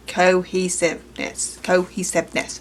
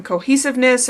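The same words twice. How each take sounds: First: "cohesiveness" slowly, syllable by syllable; slow, deliberate "co-he-sive-ness"; careful enunciation. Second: Said in the usual way. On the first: Real, not acted. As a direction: sound out "cohesiveness" in separate pieces. Sounding out a stumbled word.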